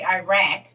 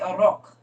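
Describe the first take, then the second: First: Iraq is said with an American pronunciation. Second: Iraq is said with a Middle Eastern pronunciation. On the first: "they don't say Iraq like we do" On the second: "They say Iraq"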